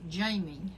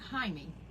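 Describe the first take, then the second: First: The name is said the American English way. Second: The name is said a non-American, foreign way. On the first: This is how people in the States say it. "you people in the States pronounce it" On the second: This is how the name's owner and his people say it. "but we pronounce it"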